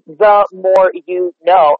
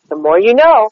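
First: Every word weighted the same, slow; each word pushed separately, no phrase. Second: "more" and "know" lifted, "the" thrown away; stress on more and know. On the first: Coach showing a client stressing every word evenly. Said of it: "you can't think of it as". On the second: Coach showing how to activate the slogan. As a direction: lean on "more" and "know" as one phrase. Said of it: "How are you saying "more" and "know". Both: Shown as a demonstration.

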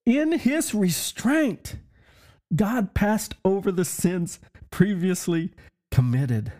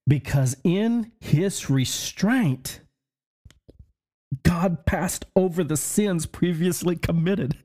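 First: "In his restraint" lifted much higher and slow, then "God passed over the sins previously committed" said slowly in wonder; awed re-reading. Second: Each phrase read slowly, with weight on "in his restraint"; a slow, solemn scripture read; slow weighty reading. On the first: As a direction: savour "In his restraint" up high and slow, like a revelation. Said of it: "Listen, it says". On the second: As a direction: lean on "in his restraint", then let "God passed over the sins" land slowly. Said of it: "Now listen to this". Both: Shown as a demonstration.

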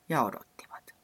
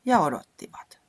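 First: Whispered. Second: Louder, impatient repeat; emphatic. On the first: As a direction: whisper it, waiting on and on. Second repeat whispered. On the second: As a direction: say it louder, fed up with waiting. Third repeat of waiting, louder. (painokkaasti, kovempaa) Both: A narrator's reading.

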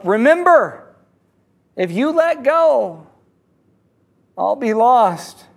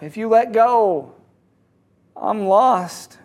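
First: Yelling up. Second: Said in the usual way. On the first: Acted. Dangling man calling to his rescuer, mock yell. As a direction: call up with drawn-out words, not full force. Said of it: "The man yells up". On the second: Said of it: "He repeats himself".

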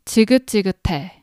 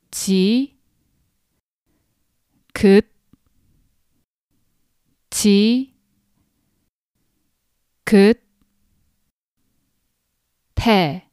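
First: 지긋지긋해 run together quickly as one word; 지긋지긋해 said fast and smooth, no gaps; faster. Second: 지 긋 지 긋 태 said one syllable at a time with long pauses; each syllable on its own, spaced apart. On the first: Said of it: "if you say this faster". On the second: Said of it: "syllable by syllable". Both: Shown as a demonstration.

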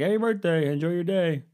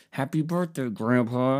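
First: Very high-pitched old grandpa imitation; put-on grandpa, pitched way up; imitated grandpa. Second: Higher-pitched put-on well-wishing; mildly hammed-up phone greeting; retold birthday greeting. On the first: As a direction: send up a grandpa's phone farewell in a high voice. Imitates grandpa replying on the call. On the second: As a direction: imitate a dutiful grandson's greeting. Retells his birthday call to grandpa.

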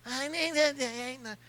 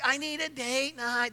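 First: Soft, slow pleading impression of his wife; a terrible soft slow imitation of his wife. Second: Soft slow mock of his wife; a hint of his wife asking softly; wife impression. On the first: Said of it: "terrible impersonation of her". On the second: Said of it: "That's exactly how she does it".

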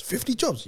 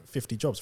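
First: Higher questioning disbelief, softly; incredulous echo. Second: Said in the usual way. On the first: Retold or imitated. Dad hearing son's job count, incredulous higher question. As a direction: echo it back as a doubting dad.

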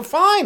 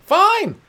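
First: Very high, clipped "Fine" with a fake smile; a high fake-happy "Fine" to avoid the question; forced cheerful fine. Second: Very high, bright-pitched "Fine" with a put-on smile; a fake-happy "Fine" to hide the feelings; forced cheerful fine. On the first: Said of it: "just go". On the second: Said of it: "Just put a smile on". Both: Shown as a demonstration.

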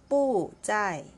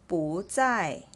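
First: "不在" with both syllables falling separately; wrong fourth-tone 不. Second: "不在" with 不 rising into a falling 在; second-tone 不. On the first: Teacher shows what to avoid, falling "不" in "不在". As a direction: drop sharply on "不", then fall again on "在". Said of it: "and not 不在". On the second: Teacher models the correct reading, rising "不" in "不在". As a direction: raise the pitch on "不", then fall on "在". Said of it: "it should be read as the second tone". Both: Shown as a demonstration.

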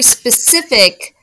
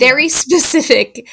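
First: Specific drawn out slowly and louder; sarcastic emphasis on specific; stressed specific. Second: Very specific said higher and louder; knowing sarcastic stress on very specific; emphatic very specific. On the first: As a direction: lean on specific, stretch it. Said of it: "repeated word drawn out". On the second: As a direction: punch very specific with a sneer. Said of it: "repeated with more force". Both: Shown as a demonstration.

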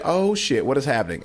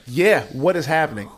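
First: Retold crowd shock. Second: Slow, higher, emphatic echo; baffled agreement. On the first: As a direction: play a startled crowd reacting. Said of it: "the crowd is like". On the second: Retold or imitated. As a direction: join the crowd's bafflement, drawn out. Comic echoes the shocked crowd.

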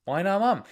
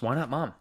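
First: "Why not mom?" thrown up high and louder, stress on "mom"; a mock-offended "Why not mom?" with a high, falling "mom"; indignant surprise. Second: Said in the usual way. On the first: Real, not acted. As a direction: protest the question playfully, pitching "mom" high.

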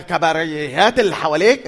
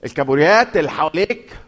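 First: كباريات said by mistake with a b-r sound; wrong word slip. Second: الكابوريات said clearly as keburjat; carefully fix the word الكابوريات; corrected word. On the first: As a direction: trip over the word كباريات before correcting. (كلمة كباريات بالغلط بدل الكابوريات) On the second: (نطق الكابوريات صح بعد التصحيح) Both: Shown as a demonstration. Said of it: "مش بالهاء".

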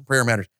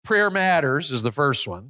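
First: Prayer hit low and firm; stress on prayer. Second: Said in the usual way. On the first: Shown as a demonstration. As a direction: land on Prayer, then drop.

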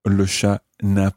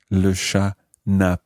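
The two takes are said the same way.

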